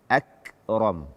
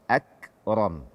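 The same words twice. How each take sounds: The two takes are said the same way.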